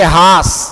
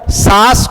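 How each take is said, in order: First: The word begins with an h sound. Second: The word begins with an s sound.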